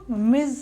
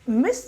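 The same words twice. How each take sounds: First: The word ends with a buzzing z sound. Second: The word ends with a hissing s sound. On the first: The speaker calls it right. "जेड का sound आता है" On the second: The speaker calls it wrong. "मिसेस मिस नहीं pronounce करते"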